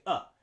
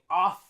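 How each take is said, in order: First: The vowel is a short, reduced uh sound. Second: The vowel is a full O sound. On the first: The speaker calls it right. "we say up" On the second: The speaker calls it wrong. "Instead of saying off"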